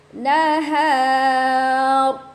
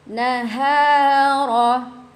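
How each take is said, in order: First: The word ends on a silent consonant. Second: The word ends with a final vowel. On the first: The reading stops here. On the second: The reading continues on.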